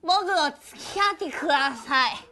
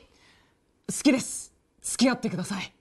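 First: It is said in a drunk-sounding voice. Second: It is said in a very deep voice.

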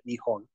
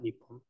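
First: The middle has a soft h sound. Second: The middle has a doubled p sound. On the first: The speaker calls it right. "I believe that counter is a nihon" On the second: The speaker calls it wrong. "not nippon"

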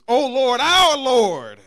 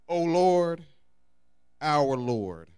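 First: It is read with excitement. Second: It is read in a plain, flat way.

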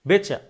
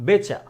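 Both takes have the same delivery.

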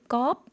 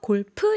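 First: It is said as Thai gop, one short syllable. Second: It is said as Korean golpeu, two syllables. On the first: "껍 이렇게 발음합니다" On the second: "골프 이렇게 하는데"

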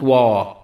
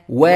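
First: The vowel after w is drawn out long. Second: The vowel after w is short. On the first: The speaker calls it wrong. "not وا" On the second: The speaker calls it right. "و not وا"

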